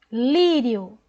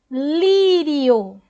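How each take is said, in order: First: Said in the usual way. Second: Lírio with LÍ louder and longer; Lírio, first syllable hit hard; stress on LÍ. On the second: Shown as a demonstration. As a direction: punch the LÍ in Lírio. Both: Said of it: "você fala o I mais forte aqui".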